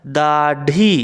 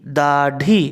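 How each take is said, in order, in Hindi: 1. बीच का व्यंजन एक पूरा मूर्धन्य स्टॉप है। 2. बीच का व्यंजन एक पूरा मूर्धन्य स्टॉप है।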